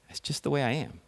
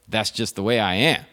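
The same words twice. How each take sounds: First: It is said in a sad tone. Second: It is said in a defiant tone.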